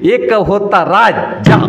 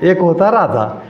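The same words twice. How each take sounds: First: Each word is pushed out with heavy force. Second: The words flow evenly without heavy force. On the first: This is how an untrained speaker from her background talks. The speaker calls it wrong. "तिला त्या शब्दांवरती जोर देऊन बोलायची सवय होती" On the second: This is the trained, refined way of speaking. The speaker calls it right. "ती थोडं थोडं व्यवस्थित म्हणायला लागली"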